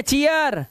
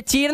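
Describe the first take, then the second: First: चीयर in two parts, chee-yar; correct pronunciation. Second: चीर said as one short syllable, no glide; wrong pronunciation. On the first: Teacher corrects the reading for students, चीयर with a clear glide. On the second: Teacher shows students the wrong reading, चीर in one syllable. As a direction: misread चीर as a single syllable. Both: Shown as a demonstration. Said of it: "अब ये चीर नहीं है".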